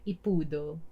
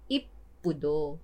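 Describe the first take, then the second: First: The p sound is single and short. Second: The p sound is doubled and held long. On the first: The speaker calls it wrong. "hindi siya Ipudo" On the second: The speaker calls it right. "Kaya kailangan mo siyang i-sound off"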